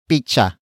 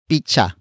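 First: The middle consonant is a ch sound. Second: The middle consonant is a ch sound.

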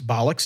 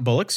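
First: The first vowel sounds like the one in doll. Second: The first vowel sounds like the one in bull. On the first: The speaker calls it right. "I do believe it's bollocks" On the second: The speaker calls it wrong. "not bullocks"

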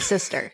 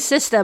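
First: The final R sound is pronounced. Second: The final R sound is dropped. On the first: The speaker calls it right. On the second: The speaker calls it wrong.

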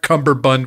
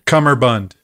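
First: An extra b sound follows the first syllable. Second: No b sound follows the first syllable. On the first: The speaker calls it wrong. "It's not cummerbund with a B" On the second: The speaker calls it right. "give me the correct pronunciation"

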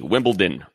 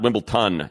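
First: The middle D sound is clearly pronounced. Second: The middle D sound is dropped or weakened. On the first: The speaker calls it right. "it's Wimbledon with a D" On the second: The speaker calls it wrong. "not Wimbledon"

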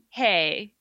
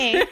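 First: It is said in a normal voice. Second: It is said in a baby voice.

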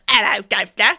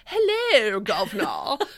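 First: It is said in a plain, unaffected accent. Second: It is said in a posh, affected accent. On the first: The speaker is not trying to sound upper-class. "instead of like" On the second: The speaker wants to sound upper-class. "people wanted to sound posh. So they would be like"

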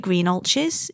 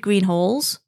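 First: The name ends with a 'ches' sound. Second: The name ends with a 'halls' sound. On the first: This is how locals from the north say it. The speaker calls it wrong. "we call it Green Ulches" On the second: This is the standard pronunciation. The speaker calls it right. "it should be Green Halls, if you're pronouncing it right"

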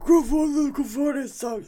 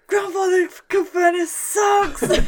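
First: It is said in a put-on character voice. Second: It is shouted in the speaker's natural voice. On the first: "in a voice like" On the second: "she would shout"

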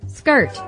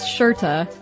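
First: The word begins with a hard sk sound. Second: The word begins with a soft sh sound. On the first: The speaker calls it wrong. "I'm going to pronounce it the way we pronounced it or mispronounced it" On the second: The speaker calls it right. "pronounced shirta"

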